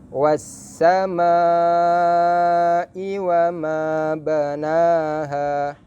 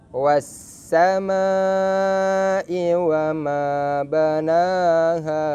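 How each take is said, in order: Both takes have the same delivery.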